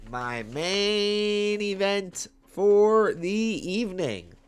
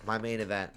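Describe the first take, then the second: First: High, loud, stretched announcer call; ring announcer call. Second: Said in the usual way. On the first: Pretend.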